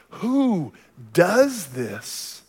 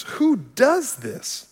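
First: Very slow, weighty question leaning on who; preacher posing the question to the congregation; rhetorical question. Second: Higher, slow, drawn-out disbelief at who; mock objector asking who would ever do this; incredulous scoff. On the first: Acted. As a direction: ask who slowly, letting it hang before the answer. Rhetorical question answered next. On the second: Objector scoffing at turning the cheek.

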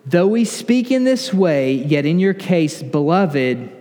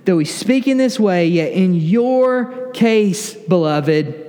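First: Said in the usual way. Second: "your case" lifted and drawn right out; slow, weighty emphasis on "your case"; stress on YOUR CASE. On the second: Real, not acted. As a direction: linger slowly on "your case", pointing it at the listeners. Rereads verse, pointed at congregation.

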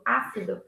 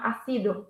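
First: Ácido stressed on open "á", falling; stress on first syllable. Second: Ácido wrongly stressed on "ci"; wrong stress on second syllable. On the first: Teacher correcting herself after "not", "ácido" stressed on Á. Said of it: "you stress the letter". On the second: Teacher showing the wrong form, "ácido" stressed on CI. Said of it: "It's not ácido". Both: Shown as a demonstration.

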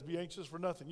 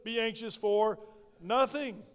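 First: "Be anxious for nothing" said softly, with a falling "nothing"; soft restatement. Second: "Be anxious for nothing" with a loud, drawn-out "for" before "nothing"; "nothing" louder and held apart from "Be anxious for"; emphatic scripture. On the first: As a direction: quietly settle on "Be anxious for nothing". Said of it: "follow what God says". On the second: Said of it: "the Bible says". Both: Shown as a demonstration.

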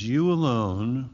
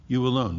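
First: Said in the usual way. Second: "alone" stretched and leaned on, the n held long; stress on alone. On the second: Shown as a demonstration. Preacher driving home to the congregation that "alone" matters. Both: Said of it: "It's emphatic".

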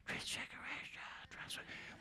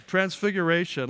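First: Barely audible, whispered mock answer; timid whisper. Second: Bold, confident call-out. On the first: Last service's crowd answering the preacher, timid whisper. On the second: Retold or imitated. Front-row man answering the preacher's question, bold. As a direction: say it boldly, full voice. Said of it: "he's like, Bold".

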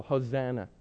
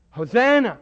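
First: Said in the usual way. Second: Joyful shout of Hosanna!; crowd acclamation. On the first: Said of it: "one you all know well". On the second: Retold or imitated. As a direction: cry it like the crowd on the road.

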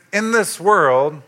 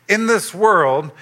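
No difference in how they are said.

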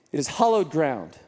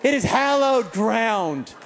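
First: First vowel of "hallowed" opened to "ah"; mispronounced hallowed. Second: Slow, drawn-out "hallowed" with the short a of "hat"; corrected pronunciation. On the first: Real, not acted. Preacher describing the basement court, "hallowed" said like "hollowed". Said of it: "Is that how you say it?". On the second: Shown as a demonstration. Preacher redoing his line after correction, slow exaggerated "hallowed". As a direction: overdo the correct "hal" in "hallowed". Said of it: "Don't correct me with such a judgmental tone".

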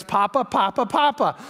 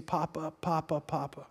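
First: Lightly imitated excited children; imitated eager grandchildren. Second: Put-on very soft, low, hurt-child murmur; hushed plaintive repeated call; understated imitation of crying. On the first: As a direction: mimic grandchildren clamoring for grandpa. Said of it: "first words you're gonna hear". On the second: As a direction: mimic a tearful toddler being held, hushed. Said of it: "she cries and cries and keeps saying".

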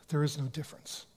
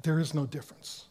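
First: Hushed repeat. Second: Said in the usual way. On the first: Shown as a demonstration. Preacher repeating the answer to his congregation, hushed. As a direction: drop to a soft, hushed repeat for emphasis. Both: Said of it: "That's a trick question".

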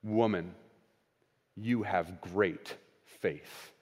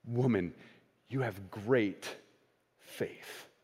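First: Slow, soft, low and tender; tender commendation. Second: Slower, softer, fading to a breath; almost whispered blessing; hushed tender. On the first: Jesus commending the woman's faith, slow and tender. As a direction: let the words land gently, like a blessing. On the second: Jesus repeating his praise to the woman, hushed and tender. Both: Acted. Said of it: "listen to how Jesus' tone changes".

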